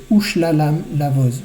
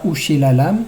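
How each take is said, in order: First: "Ushlalam" with no vowel after sh; silent sheva. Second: "Ushilalam" with a vowel after sh; voiced sheva, wrongly. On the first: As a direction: join sh straight to l in "Ushlalam". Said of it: "Le Shin porte un Sheva Nah". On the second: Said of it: "C'est pas Ushilalam". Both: Shown as a demonstration.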